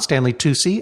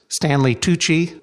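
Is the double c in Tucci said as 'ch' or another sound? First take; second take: other; ch. First: The double c does not sound like 'ch'. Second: The double c sounds like 'ch'. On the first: The speaker calls it wrong. "and not" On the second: The speaker calls it right. "Stanley Tucci is pronounced"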